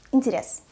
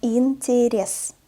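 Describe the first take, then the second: First: Quick, run-together "Интерес"; fast reading. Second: "Интерес" stretched out syllable by syllable; slow reading. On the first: Teacher reads as a native speaker, "Интерес" said fast. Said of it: "I will read this word fast". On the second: Teacher models the word for beginners, "Интерес" read slowly. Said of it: "I will read this word slowly". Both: Shown as a demonstration.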